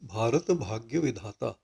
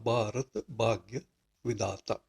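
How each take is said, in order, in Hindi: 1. bh और dh ध्वनियों में साँस होती है। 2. bh और dh सादे b और d बन जाते हैं।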